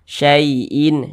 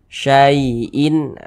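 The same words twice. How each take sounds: First: The vowel leans toward an 'e' sound. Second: The vowel is a soft, clear 'ai' glide. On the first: The speaker calls it wrong. "jangan sampai condong ke huruf e. Jangan dibaca syai'in" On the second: The speaker calls it right. "dilunakkan, kita baca syai'in"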